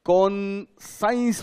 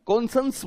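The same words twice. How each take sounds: First: कॉन्साइंस drawn out, second syllable rhyming with "signs"; spelling pronunciation. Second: कॉन्सेंस with a short second syllable, "sens"; spoken pronunciation. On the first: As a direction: say कॉन्साइंस slowly, as spelt, with a long "ai". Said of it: "उसका दरअसल spelling है". (कॉन्साइंस, धीरे-धीरे, 'साइं' खींचकर) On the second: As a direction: say कॉन्सेंस with no "ai" sound. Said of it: "कॉन्सेंस बोलते हैं". (कॉन्सेंस, छोटे 'सेंस' के साथ) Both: Shown as a demonstration.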